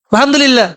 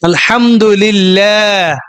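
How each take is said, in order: First: The 'laa' vowel is clipped short and rushed. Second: The 'laa' vowel is drawn out long. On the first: The meaning becomes distorted. The speaker calls it wrong. "এত হটে গেলে আলহামদুলিল্লাহ এ ভুল" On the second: The meaning is kept intact. The speaker calls it right. "বলেন না লিল লা"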